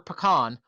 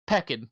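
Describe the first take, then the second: First: The word ends in a full 'can' or 'kahn' sound. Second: The word ends in a short 'kin' sound. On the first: The speaker calls it right. "those are the two generally accepted responses" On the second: The speaker calls it wrong. "They were like peckin"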